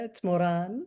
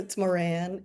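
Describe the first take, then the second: First: The name is said the South American way. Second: The name is said the American way.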